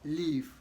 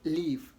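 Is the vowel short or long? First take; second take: long; long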